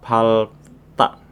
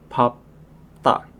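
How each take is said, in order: First: An L sound comes before the final syllable. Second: A P sound comes before the final syllable. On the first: The speaker calls it wrong. "Bukan palta" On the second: The speaker calls it right. "tapi papta"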